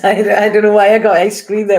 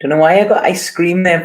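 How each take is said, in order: First: Louder, quicker, laughing through the line; amused laugh over ice cream there; laughing at herself. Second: Said in the usual way. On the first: Real, not acted. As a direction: giggle at your own slip of the tongue. Repeats the slip, laughing.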